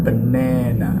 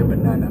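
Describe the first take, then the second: First: BaNAna with a long, slow NA; stressed middle syllable. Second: Said in the usual way. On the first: Shown as a demonstration. Teacher correcting how to say banana, middle syllable stretched and stressed. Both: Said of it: "Don't say banana".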